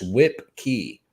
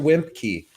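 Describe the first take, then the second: First: The name has no M sound before the K. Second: The name has an M sound before the K. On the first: The speaker calls it right. "It's Whip Key" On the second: The speaker calls it wrong. "they're like, mister Wimpkey"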